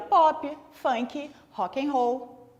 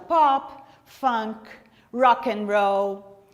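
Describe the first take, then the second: First: It is said with Brazilian Portuguese pronunciation. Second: It is said with English pronunciation.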